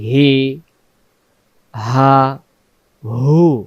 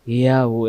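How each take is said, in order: First: Each syllable is said separately with pauses between. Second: The syllables are run together without pauses. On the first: The speaker calls it right. "ভেঙ্গে ভেঙ্গে বলি" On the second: The speaker calls it wrong. "তিন অক্ষর একসাথে বললে উচ্চারণটা ঠিক আসে না, হিয়া হু এমন হয়"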